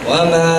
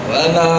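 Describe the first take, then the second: No difference in how they are said.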